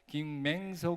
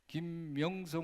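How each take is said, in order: First: The second syllable has the vowel 'ae'. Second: The second syllable has the vowel 'yeo'. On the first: The speaker calls it wrong. "김맹석 목사님의 오늘 말씀이래" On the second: The speaker calls it right. "김명석 목사님의 오늘 말씀이가 아니고"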